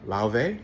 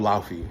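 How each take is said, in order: First: The name is said with a Scandinavian pronunciation. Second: The name is said with an English pronunciation. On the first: "I'm trying to do the Scandinavian enunciation" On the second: "I think is what we're going with the English translation"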